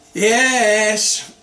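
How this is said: It is said in a weary, fed-up way. The speaker is tired of the topic. "it means I'm getting so tired of it"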